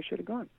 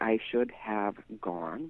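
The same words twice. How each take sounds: First: The words are contracted into one sound unit. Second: Each word is said fully and separately. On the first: The speaker calls it right. "We say, ... It's all contracted" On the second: The speaker calls it wrong. "we don't say"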